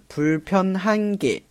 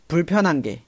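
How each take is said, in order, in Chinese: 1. h音完整地发出来。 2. h音弱化到几乎听不见。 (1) "它的实际读音的话应该是" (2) "读得快的时候呢就变成了"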